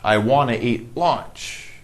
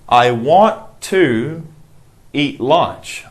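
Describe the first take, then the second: First: 'Want to' is blended into 'wanna' without T sounds. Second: Each word of 'want to' is said in full.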